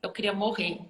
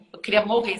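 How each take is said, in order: First: Said in the usual way. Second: Said again, louder, for emphasis; louder emphatic repeat. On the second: Real, not acted. Telling the podcast host how mortified she was, louder. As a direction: lean hard on "queria", louder.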